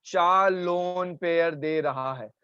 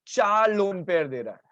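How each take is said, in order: First: Slow, spaced-out emphatic repeat. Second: Said in the usual way. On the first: Shown as a demonstration. Teacher repeats the answer for the class, slowly. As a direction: stretch out each word to make it sink in.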